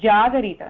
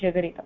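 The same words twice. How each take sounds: First: The first vowel is held long. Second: The first vowel is kept short. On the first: The speaker calls it right. "This is Jagarita, That is a line after Ja" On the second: The speaker calls it wrong. "not Jagarita"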